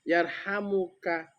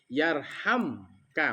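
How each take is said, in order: First: A u vowel is heard between m and k. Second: The m runs straight into k, no vowel. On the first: The speaker calls it wrong. "Jangan dibaca yarhamukallah" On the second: The speaker calls it right. "Tapi yarhamka. Mati mimnya"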